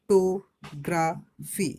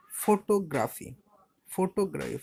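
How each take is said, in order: First: "photography" very slow, in four loud beats; split into syllables. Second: Said in the usual way. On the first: Shown as a demonstration. Teacher showing a polysyllable, "photography" slowly split in four. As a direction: break it up as ফ-টো-গ্রা-ফি, pausing between. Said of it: "তিনের বেশি, চার পাঁচ".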